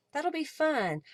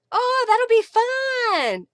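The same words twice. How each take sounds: First: Said in the usual way. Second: High, loud, drawn-out delight; excited. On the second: Real, not acted. Crafter reacting to a viewer's crafty group, excited. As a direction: gush it out with long, high vowels.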